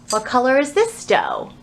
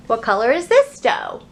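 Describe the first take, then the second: No difference in how they are said.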